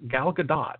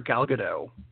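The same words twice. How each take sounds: First: The final T of the surname is pronounced. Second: The final T of the surname is silent. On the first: The speaker calls it right. "It really is Gal Gadot. ... So the T is not silent" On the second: The speaker calls it wrong. "we've been saying it wrong the whole time"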